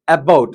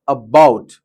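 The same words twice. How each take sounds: First: The first vowel is full and strong. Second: The first vowel is short and weak. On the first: The speaker calls it wrong. "It's not about" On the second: The speaker calls it right. "you need to make short and weak a sound"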